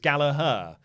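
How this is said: The name has an American pronunciation. The speaker calls it wrong. "usually the American way of saying it, which is incorrect"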